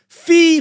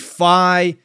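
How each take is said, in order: First: The name is said with an 'ee' vowel. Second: The name is said with an 'eye' vowel. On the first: "which is pronounced Fee" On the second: "I've always said Fi"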